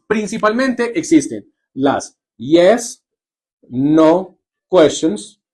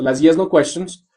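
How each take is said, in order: First: Drawn-out teacher's slow naming of "yes, no questions"; slow, careful. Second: Said in the usual way. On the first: Shown as a demonstration. Teacher introducing the term to her class, said slowly. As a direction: stretch out "las yes, no questions" slowly, word by word. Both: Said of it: "¿Listo?".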